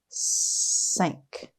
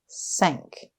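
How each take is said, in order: First: The word is drawn out slowly, sound by sound. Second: The word is said quickly as one smooth unit. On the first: "Tap and stretch" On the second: "Say it fast"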